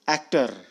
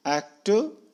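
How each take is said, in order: First: एक्टर ending in a clear R; American R in एक्टर. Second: एक्टर ending without R; British R-less एक्टर. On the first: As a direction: sound the final R in एक्टर. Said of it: "American करते हैं". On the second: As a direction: drop the final R of एक्टर. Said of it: "British वाले आर का pronunciation नहीं करते". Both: Shown as a demonstration.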